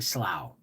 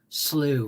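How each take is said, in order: First: The word rhymes with rough. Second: The word rhymes with blue. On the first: The speaker calls it wrong. "I kept saying slough because it was spelled S L O U G H. And to me, that's cough, rough" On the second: The speaker calls it right. "because I pronounced slew wrong"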